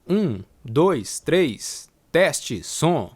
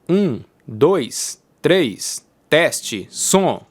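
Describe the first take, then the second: First: The whole voice is recorded ten decibels lower. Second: The low bass of the voice is cut away. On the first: "agora eu vou ativar a chave de atenuação de menos dez decibéis" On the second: "agora eu vou ativar a chave de atenuação de graves"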